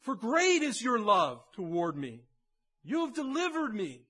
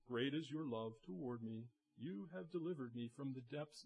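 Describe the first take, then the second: First: Loud, fervent proclamation, rising high; passionate. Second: Soft and lifeless, voice dropping away; flat, quiet reading. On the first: Pastor showing David's real prayer, loud and passionate. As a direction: cry it out with your whole heart. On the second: Pastor showing how David did not pray, low and flat. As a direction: read it as if it meant nothing. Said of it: "Oh, he doesn't say". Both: Shown as a demonstration.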